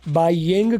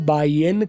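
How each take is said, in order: First: The final g sound is clearly pronounced. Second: The final g sound is dropped. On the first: "गोरे जी भी बोल जी बोलते भी हैं" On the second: "जी silent भी करते हैं"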